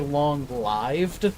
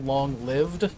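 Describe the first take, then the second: First: The vowel in 'lived' rhymes with 'five'. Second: The vowel in 'lived' rhymes with 'give'. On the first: The speaker calls it wrong. "they say long-lived" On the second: The speaker calls it right. "who don't say long-lived"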